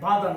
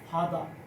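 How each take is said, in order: First: The word begins with a voiced b sound. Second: The word begins with a breathy p sound. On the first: The speaker calls it wrong. "এটা বাদা না" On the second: The speaker calls it right. "এটা হবে ফাদা"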